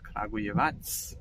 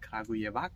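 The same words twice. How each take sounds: First: The final c sounds like th. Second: The final c sounds like a k. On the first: The speaker calls it right. "So the C is pronounced as th" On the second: The speaker calls it wrong. "it is not called Kragujevac"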